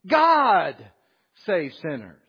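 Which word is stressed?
God. The word God is stressed.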